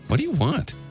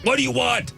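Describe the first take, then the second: First: It is said in a friendly, curious tone. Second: It is said in an angry tone.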